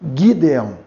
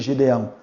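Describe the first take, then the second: First: It begins with a hard G sound. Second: It begins with a soft J-like sound. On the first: The speaker calls it right. "Seria Gideão. ... É um G duro" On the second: The speaker calls it wrong. "Nunca seria Gideão"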